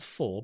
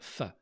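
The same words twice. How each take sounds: First: The word is said with a full vowel. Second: The word is said with a reduced vowel. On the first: The speaker calls it wrong. "not for" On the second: The speaker calls it right. "but for"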